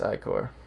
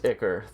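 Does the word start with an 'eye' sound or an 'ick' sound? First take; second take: eye; ick. First: The word starts with a long 'eye' sound. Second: The word starts with a short 'ick' sound. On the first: The speaker calls it right. "But it's it's Icor" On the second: The speaker calls it wrong. "If it if it were pronounced Icker"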